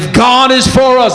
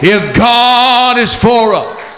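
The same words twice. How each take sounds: First: It is said in an ordinary speaking voice. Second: It is said in a put-on preaching voice.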